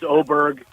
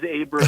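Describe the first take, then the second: First: The name begins with an 'oh' vowel. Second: The name begins with an 'ah' vowel. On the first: This is how the player himself says it. "he told us it's Oberg" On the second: This matches how the name is written on screen. "I wish he would have chosen Aberg because it says Aberg on the screen"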